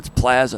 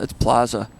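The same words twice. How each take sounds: First: Plaza is said in a Michigan accent. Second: Plaza is said in a non-Michigan accent.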